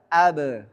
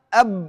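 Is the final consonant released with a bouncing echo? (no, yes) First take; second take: yes; no. First: The final b is released with a short bounce. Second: The final b is held tight with no release. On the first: "kalau ada qalqalahnya bunyinya mudah" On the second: "Kalau belum ada qalqalahnya bunyinya ab"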